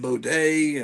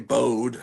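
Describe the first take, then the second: First: The final vowel is sounded as a syllable. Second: The final vowel is silent. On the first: "I guess that's how you pronounce it" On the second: "I used to say Bode"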